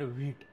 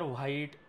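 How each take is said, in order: First: The vowel sounds like 'ee', as in veet. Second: The vowel sounds like 'eye', as in white. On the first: The speaker calls it right. "याचा उच्चार व्हीट असा आहे" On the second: The speaker calls it wrong. "ह्याचा उच्चार व्हाईट वगैरे असा नाही आहे"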